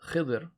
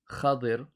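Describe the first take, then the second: First: The first vowel is 'i', with no second vowel. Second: The first vowel is 'a', followed by 'i'. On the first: This is the common form of the name. "some people call him Sheikh Khidr" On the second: This is how some Arabs called him. "Kha with a fatha and Dad with a kasra"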